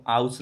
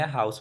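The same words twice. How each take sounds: First: "हाउस" with the H wrongly dropped, as "aus"; "हाउस" without its opening H sound; wrong pronunciation. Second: "हाउस" with a clearly sounded H at the front; "हाउस", audible H before the vowel; correct pronunciation. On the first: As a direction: say "हाउस" wrongly, starting straight on the vowel. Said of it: "नहीं पढ़ेंगे". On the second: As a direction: say "हाउस" as "haus", H pronounced. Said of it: "हाउस पढ़ेंगे". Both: Shown as a demonstration.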